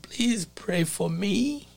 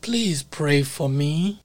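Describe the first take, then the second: First: Retold plea, slow, with the voice breaking; slow broken-voiced plea; voice cracking. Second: Said in the usual way. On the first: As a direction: imitate him pleading as his voice cracks, slowly. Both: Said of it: "with a cracking voice".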